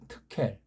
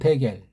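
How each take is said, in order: First: The word starts with an aspirated t sound. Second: The word starts with a plain d sound. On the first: This is the original-language form of the word. The speaker calls it right. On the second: This is the form used in the Korean Bible. The speaker calls it wrong. "이걸 우리 한글은 대겔"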